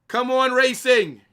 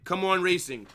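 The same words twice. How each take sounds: First: Loud, high, drawn-out cheer for Racing; shouted cheer. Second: Said in the usual way. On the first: Real, not acted. Streamer urging Racing on mid-match, loud shouted cheer. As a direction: yell it at the screen like a fan.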